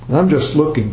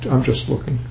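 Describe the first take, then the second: First: It is said in a curt, irritated tone. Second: It is said in a polite, friendly tone. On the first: The speaker wants to be left alone. "Don't bother me. Why are you always coming to me? Can't you leave me alone?" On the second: The speaker is simply browsing and declines help. "Nothing wrong with saying"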